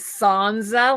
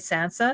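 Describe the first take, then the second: First: The middle consonant is a buzzing z sound. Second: The middle consonant is a hissing s sound. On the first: Someone else says it this way. "like like it's got a Z in it" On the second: The speaker says it this way. "I always say Sansa"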